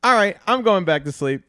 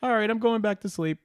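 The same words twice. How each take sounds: First: Loud, high punchline delivery; high, projected comic voice; acted giving up, projected. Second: High-pitched resigned punchline; high comic bedtime voice; acted giving up. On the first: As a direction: repeat the bedtime line big, as a cue. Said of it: "so then they say". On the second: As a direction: give up and head back to bed, pitched up. Punchline of acted night scene.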